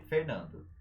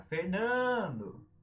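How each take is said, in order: First: Said in the usual way. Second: FERNANDO with a long, high NAN; stretched stressed syllable. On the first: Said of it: "não tem acento". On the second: Shown as a demonstration. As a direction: call "Fernando", holding the middle syllable. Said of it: "mas tem sílaba tônica".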